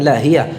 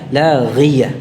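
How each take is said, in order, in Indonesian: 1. Konsonan tengahnya h biasa yang berdesah. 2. Konsonan tengahnya bunyi gh yang bertenggorok. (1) "Bukan lahiyah" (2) "ghi-nya diucapkan dari makhrajnya, dari ujung tenggorokan"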